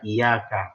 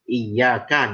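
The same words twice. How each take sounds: First: The y sound is short and single. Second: The y sound is held long and doubled. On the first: The speaker calls it wrong. "ngurangin tasydid" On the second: The speaker calls it right. "kita ngurangin tasydid"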